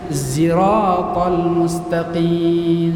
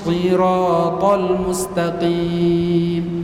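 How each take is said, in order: First: The first word begins with a z-like sound. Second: The first word begins with an s sound. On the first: "zirat agak mirip ke za" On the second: "seharusnya adalah"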